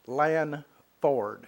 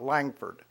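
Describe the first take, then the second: First: The name has no g sound in the middle. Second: The name has a g sound in the middle. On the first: The speaker calls it right. "It's Lanford" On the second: The speaker calls it wrong. "there certainly is no G in it. There's, it's not Langford"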